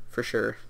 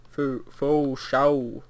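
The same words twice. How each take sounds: First: Said in the usual way. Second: "Fo, fo shao" drawn out slowly, dropping the r of "for sure"; jokey mispronunciation. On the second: Pretend. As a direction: stretch "shao" into a long, playful slang vowel.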